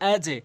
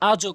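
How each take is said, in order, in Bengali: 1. শেষের ঝাঁকুনিটি 'e' শব্দের দিকে ঝোঁকে। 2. শেষের ঝাঁকুনিটি 'o' শব্দের দিকে ঝোঁকে। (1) "এটি নিচের দিকে সাউন্ড হবে আজে" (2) "কখনোই বলতে পারবেন না"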